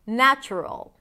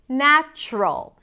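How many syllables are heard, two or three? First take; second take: three; two. First: The word is said with three syllables. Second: The word is said with two syllables. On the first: "instead of" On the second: "Reducing three syllables into two"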